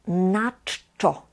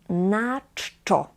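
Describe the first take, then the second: The two takes are said the same way.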